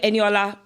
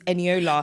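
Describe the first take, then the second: First: The name is said with an African accent. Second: The name is said with a British accent. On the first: "Africans were Eniola" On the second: "more British accent is Eniola"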